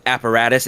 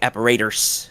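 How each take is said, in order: First: The word is said with an American vowel. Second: The word is said with a British vowel. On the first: The speaker calls it right. "when people do American accents, it like instead of apparatus" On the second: The speaker calls it wrong. "it's like apparators"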